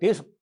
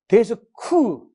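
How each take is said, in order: First: No vowel follows the final k. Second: An extra vowel follows the final k. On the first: The speaker calls it right. "영어는 으가 없으니까" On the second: The speaker calls it wrong. "으가 있으니까"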